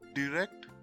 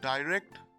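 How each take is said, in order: First: The i sounds like 'ee'. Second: The i sounds like 'eye'. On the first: "in the American format, the I in these words is pronounced as E" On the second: "The I in these words is pronounced as it is, that is, as I"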